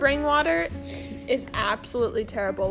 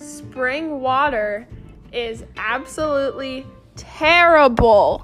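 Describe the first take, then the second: First: It is said at normal speed. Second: It is said slowly.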